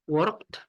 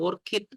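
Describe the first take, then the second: First: The word is said as one syllable. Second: The word ends with an extra syllable. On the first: The speaker calls it right. "dia tidak kelihatan eh, akhirannya" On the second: The speaker calls it wrong. "kita nggak bilang"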